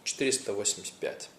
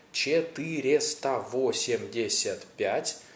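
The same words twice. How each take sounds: First: Четыреста восемьдесят пять fast, vowels swallowed, like чтырста восмсят пять; quick clipped form. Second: Четыреста восемьдесят пять slowly with every vowel sounded; full slow form. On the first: Teacher showing how Russians really say it, quick. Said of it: "Something like that". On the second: Teacher showing the long form nobody uses, slowly. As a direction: say the full number slowly and carefully. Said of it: "They would say it shorter". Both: Shown as a demonstration.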